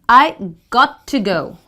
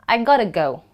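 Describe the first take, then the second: First: The words are said in full, clearly separated. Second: The words blend, with a flapped D-like sound.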